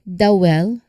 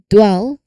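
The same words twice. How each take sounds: First: The D and W sounds are split apart. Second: The D glides straight into the W. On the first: The speaker calls it wrong. "not dwell" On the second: The speaker calls it right. "So it's a single, smooth movement"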